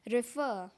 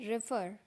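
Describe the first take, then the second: First: It is said in a British accent. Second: It is said in an American accent. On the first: "British में बोलते हैं" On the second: "इसको बोलते हैं रेफर American में"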